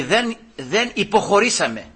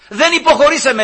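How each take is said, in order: First: Said in the usual way. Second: «Δεν υποχωρήσαμε» said higher, with «Δεν» hit hard; firm stress on «Δεν», pitch lifted; emphatic repeat. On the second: Retold or imitated. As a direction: punch «Δεν» in «Δεν υποχωρήσαμε», raised.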